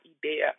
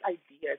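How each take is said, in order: First: The word is said with a French pronunciation. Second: The word is said with an English pronunciation. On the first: The speaker calls it wrong. "it's not idea" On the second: The speaker calls it right. "it's idea"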